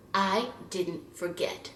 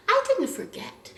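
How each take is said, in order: First: Quiet grudge. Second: Laughing repeat. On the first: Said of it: "grudging statement". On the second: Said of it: "repeated with laugh". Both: Real, not acted.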